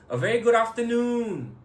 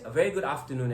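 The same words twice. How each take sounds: First: Afternoon is drawn out and prolonged. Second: Afternoon is said at normal length.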